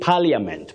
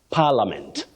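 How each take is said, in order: First: The i in the middle is pronounced. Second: The i in the middle is silent. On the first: The speaker calls it wrong. "people find themselves saying parliament" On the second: The speaker calls it right. "that I is silent"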